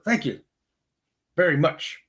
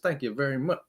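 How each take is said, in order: First: It is said like a badly dubbed movie line. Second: It is said in a plain, normal voice.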